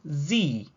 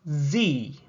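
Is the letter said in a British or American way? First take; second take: American; American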